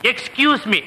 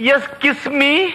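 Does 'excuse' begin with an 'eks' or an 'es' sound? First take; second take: eks; es. First: The word starts with 'eks', with a k sound. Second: The word starts with 'es', no k sound. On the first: The speaker calls it right. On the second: The speaker calls it wrong. "அது எஸ்கியூஸ் me இல்ல"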